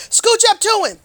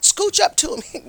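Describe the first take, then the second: First: Scooch called out higher and louder; rising eager call, Scooch up to him; excited urging. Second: Said in the usual way. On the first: Shown as a demonstration. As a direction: push the word Scooch up high and loud. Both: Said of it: "Get real close".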